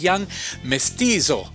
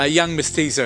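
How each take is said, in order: First: The name is said with an Italian accent. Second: The name is said with an English accent.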